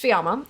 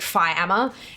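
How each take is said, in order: First: The first syllable sounds like 'fee'. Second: The first syllable sounds like 'fie'. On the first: The speaker calls it right. "it's pronounced Fiamma" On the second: The speaker calls it wrong. "they see the the Phi and then Amma"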